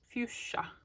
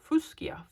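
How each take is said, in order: First: The middle of the word sounds like sh. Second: The middle of the word sounds like sk.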